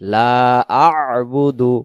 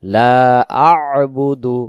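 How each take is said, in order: First: The throat consonant is clearly sounded after 'la'. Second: The same.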